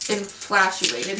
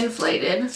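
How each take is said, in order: First: "inflatuated" said slowly with an extra "-tuated" syllable; slow, fumbled "inflatuated" that is caught halfway; mispronounced word. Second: "inflated" said cleanly in three syllables; the corrected "inflated" after fumbling it; corrected word. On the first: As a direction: stumble on "inflatuated" as a garbled form of inflated. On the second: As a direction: land the fix: "inflated", plain and sure. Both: Real, not acted.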